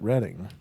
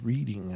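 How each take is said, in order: First: It is said the way people in England say it. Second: It is said the way people in Ohio say it. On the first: "In England, they pronounce it Reading" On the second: "but this is Reading, I think, because it's in Ohio"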